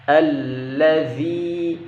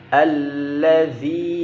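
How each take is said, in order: No difference in how they are said.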